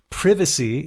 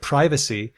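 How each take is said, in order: First: The first vowel is short and lax. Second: The first vowel is long and tense. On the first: This is the British form. "in British English, it's more likely to lax" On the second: This is the American form. "American English just keeps the tense versions"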